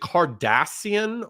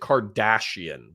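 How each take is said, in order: First: The middle consonant is a plain s sound. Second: The middle consonant is an sh sound. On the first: "Because there's two S's" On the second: "so close to Kardashian that I pronounce it that way"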